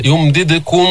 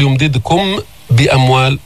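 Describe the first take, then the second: First: يمددكم with the final م hidden in a nasal ghunna; hidden mim. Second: يمددكم بأموال with the م fully pronounced before the ب; clear mim, wrong. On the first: Teacher shows students the correct hidden mim with ghunna. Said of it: "فنقول يمددكم على الغنة". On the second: Teacher shows students the wrong clear mim. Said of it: "لا نقول". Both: Shown as a demonstration.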